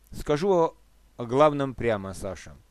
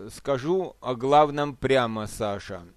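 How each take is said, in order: No difference in how they are said.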